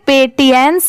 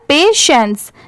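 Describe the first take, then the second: First: The middle consonant is a 't' sound. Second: The middle consonant is an 'sh' sound. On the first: The speaker calls it wrong. "इसे पेटियंस नहीं पढ़ेंगे" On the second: The speaker calls it right. "इसकी pronunciation है यहाँ पर पेशेंस"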